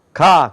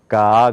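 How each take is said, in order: First: Short "가" with the mouth opened once; plain Korean "가", short; Korean-style 가. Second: Low, drawn-out "가" from the throat; American "가", long and low; American-style 가. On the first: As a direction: say "가" quickly at the front of the mouth. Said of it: "그렇게 못 내고요". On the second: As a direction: open "가" slowly with a flat tongue. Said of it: "그렇게 나요". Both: Shown as a demonstration.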